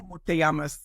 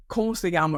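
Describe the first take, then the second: First: "¿Cómo te llamas?" as learned from a book; careful classroom "¿Cómo te llamas?"; sterile textbook Spanish. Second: "¿Cómo se llama?" slurred together as a local says it; "¿Cómo se llama?" run together, not textbook; local's run-together Spanish. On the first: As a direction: recite "¿Cómo te llamas?" like a schoolbook phrase. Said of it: "sterile way that I had learned it". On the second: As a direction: imitate a native's hard-to-catch "¿Cómo se llama?". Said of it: "how he was saying it". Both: Retold or imitated.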